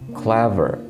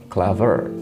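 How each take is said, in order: First: The stress is on the first syllable. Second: The stress is on the second syllable. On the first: The speaker calls it right. "the stress is usually on the first syllable" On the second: The speaker calls it wrong.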